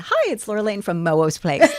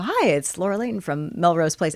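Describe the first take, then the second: First: The word Melrose comes out garbled and slurred. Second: The word Melrose is pronounced clearly and fully. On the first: The speaker calls it wrong. "I'd be, ... what is wrong with me? I couldn't get it out" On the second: The speaker calls it right. "we'd have to go"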